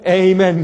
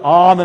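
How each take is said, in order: First: The word begins with an 'ay' glide vowel. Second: The word begins with an open 'ah' vowel. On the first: The speaker calls it wrong. "우리 미국 사람들은 말이죠. 그것도 모르고서 에이멘 그래요" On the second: The speaker calls it right. "우리가 아멘 할 때"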